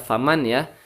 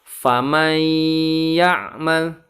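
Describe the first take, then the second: First: The n is pronounced clearly before the y. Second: The n merges into a held nasal y. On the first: The speaker calls it wrong. "Awas jangan dibaca faman ya" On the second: The speaker calls it right. "tapi harus dibaca faman ya'mal"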